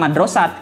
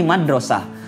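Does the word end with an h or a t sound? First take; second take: t; h. First: The word ends with a t sound. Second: The word ends with an h sound. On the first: The speaker calls it wrong. "Jadi bukan madrasat" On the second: The speaker calls it right. "tapi madrasah"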